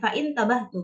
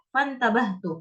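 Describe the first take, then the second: First: A glottal stop is pronounced before intabahtu. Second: The glottal stop is dropped, linking fa to ntabahtu. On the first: The speaker calls it wrong. "bukan fa'intabahtu" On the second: The speaker calls it right. "Jadi bacanya seperti itu"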